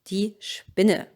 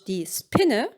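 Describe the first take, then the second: First: The s before p sounds changed, not spelled. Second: The s before p sounds as spelled. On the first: The speaker calls it right. "but die Spinne" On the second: The speaker calls it wrong. "Not die Spinne"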